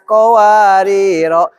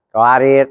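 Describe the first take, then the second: First: The word ends with a lengthened final vowel. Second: The word ends on a consonant, no final vowel. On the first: "Kalau berhenti dibaca panjang dua harokat" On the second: "alifnya ora ada"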